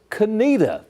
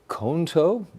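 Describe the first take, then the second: First: The name is said the way locals say it. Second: The name is read out as it is spelled. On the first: It is how the town's name is really said. The speaker calls it right. "That's a pronunciation" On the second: It is a guess from the written name. The speaker calls it wrong. "we look at that and you go, well, it's got to be Conto? Not right"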